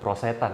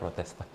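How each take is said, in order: First: It begins with 'prose', with no 't' after 'pro'. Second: It begins with 'prote', with a 't' after 'pro'. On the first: The speaker calls it wrong. "Bukan prosetan ya" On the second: The speaker calls it right.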